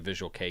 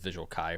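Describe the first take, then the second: First: The second word sounds like 'kay', rhyming with 'play'. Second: The second word sounds like 'kai', rhyming with 'eye'. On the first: The speaker calls it right. "it rhymes with play" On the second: The speaker calls it wrong. "I was pronouncing it as Visual Kai for the longest time"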